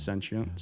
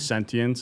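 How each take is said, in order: First: The sounds are reduced and run together quickly. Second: Every sound is pronounced fully and carefully. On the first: "if I'm feeling lazy or going fast, it's sentient" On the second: "I try to pronunciate the sentient"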